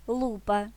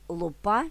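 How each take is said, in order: First: ЛУпа, stress at the start, higher pitch; stress on first syllable. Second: ЛуПА, stress at the end, rising tune; stress on last syllable. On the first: (наголос на перший склад: ЛУпа) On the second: (наголос на останній склад: луПА) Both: Shown as a demonstration. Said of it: "залежить від наголосу".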